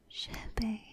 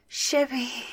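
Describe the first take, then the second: First: The name is spoken softly. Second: The name is shouted eagerly.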